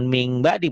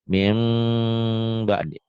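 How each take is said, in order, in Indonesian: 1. Kata pertama diakhiri dengan bunyi ng. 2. Kata pertama diakhiri dengan bunyi sengau m. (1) "jangan ming ba'di" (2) "Mim bunyi M-nya agak bindeng"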